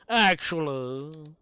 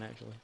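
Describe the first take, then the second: First: "Actually" stretched slowly and said louder; drawn-out emphasis. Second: Said in the usual way. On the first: Real, not acted. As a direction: lean into "Actually", slowly and loudly. Repeats the word slowly and loudly.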